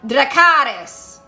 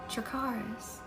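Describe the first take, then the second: First: It is shouted in an angry voice. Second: It is said gently, as if teaching.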